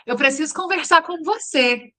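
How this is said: It sounds happy.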